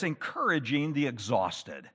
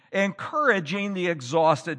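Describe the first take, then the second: First: Said in the usual way. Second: Encouraging hit louder, the line repeated with weight; stress on Encouraging. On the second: Shown as a demonstration. Preacher repeating his point to tired believers, stressing Encouraging. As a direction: lean into Encouraging the second time. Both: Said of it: "The fifth point is this".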